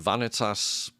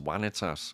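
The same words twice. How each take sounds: First: The word begins with a V sound. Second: The word begins with a W sound.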